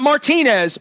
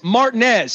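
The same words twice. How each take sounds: First: Martinez is said the usual, non-local way. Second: Martinez is said the southern local way. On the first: The speaker calls it wrong. "not Martinez" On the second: The speaker calls it right. "It's spelled the same way. That's a southern"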